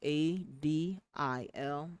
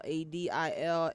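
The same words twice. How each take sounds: First: The letters are spoken slowly and deliberately. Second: The letters are spoken at a normal pace.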